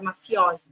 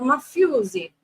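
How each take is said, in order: First: The word is said with a standard Italian pronunciation. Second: The word is said with a Sicilian dialect pronunciation. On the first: "não é da palavra italiana, que é mafiosi" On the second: "o dialeto siciliano, eles falam mafiosi"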